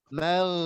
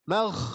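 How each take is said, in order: First: Only voice flows through the consonant, without breath. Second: Breath flows audibly through the consonant. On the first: The speaker calls it right. "hanya sekedar mengalir suara" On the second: The speaker calls it wrong. "Kalau mengalir nafas, ghoin tidak boleh"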